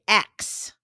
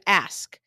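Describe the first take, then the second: First: The s sound comes after the k. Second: The s sound comes before the k. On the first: "you'll hear a lot of people say X" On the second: This is the form seen as standard. "instead of ask"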